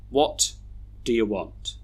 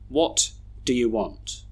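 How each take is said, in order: First: The small words are reduced to schwa. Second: The small words are reduced to schwa.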